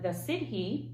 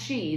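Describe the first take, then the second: First: The word is not pronounced like 'shee'. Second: The word is pronounced like 'shee'. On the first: The speaker calls it wrong. "which I know is not how you pronounce that" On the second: The speaker calls it right. "pronounced she, there you go"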